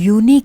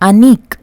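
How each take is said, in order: First: The word begins with a 'yoo' sound. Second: The word begins with a plain 'uh' vowel. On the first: The speaker calls it right. "Sound యు అని చెప్పి వస్తుంది" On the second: The speaker calls it wrong. "అనీక్ అన్నట్ల"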